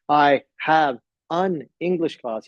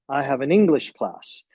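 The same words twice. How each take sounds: First: The words are said separately, without linking. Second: The words run together with linked sounds. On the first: "instead of saying" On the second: "link the sounds of the words"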